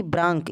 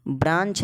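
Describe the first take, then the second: First: "ब्रांक" ending in a wrong k sound; k option. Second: "ब्रांच" ending in a ch sound; ch option. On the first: Teacher quizzing on two readings, "ब्रांक" with k. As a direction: say "ब्रांक" with "क" in place of ch. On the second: Teacher quizzing on two readings, "ब्रांच" with ch. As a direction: say "ब्रांच" with "च" at the end. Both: Shown as a demonstration. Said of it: "इसे क्या पढ़ते हैं?".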